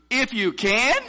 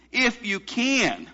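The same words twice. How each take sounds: First: "can" shooting up, high and questioning; exclamation and question mark on "can"; incredulous question. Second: Slow, high "If you can" falling on CAN; drawn-out statement with falling "can"; plain statement. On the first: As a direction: throw it back as a question, rising on "can". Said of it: "exclamation point and a question mark". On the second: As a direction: state it firmly, "can" dropping at the end. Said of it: "this statement". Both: Retold or imitated.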